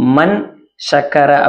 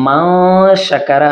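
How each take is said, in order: First: The n is pronounced fully and clearly. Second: The n is hidden as a nasal sound. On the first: "மன் ஷக்கர அப்படிங்கிறத" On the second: "நாம மா ஷக்கர அப்படின்னு சொல்றோம்"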